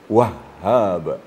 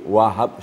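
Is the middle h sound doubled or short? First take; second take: doubled; short. First: The middle h is held and doubled. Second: The middle h is short and single. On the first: It means the Great Giver. The speaker calls it right. "tasydid di sini sangat besar fungsinya" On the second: It means simply giving. The speaker calls it wrong. "dia tidak pakai tasydid, wahab saja"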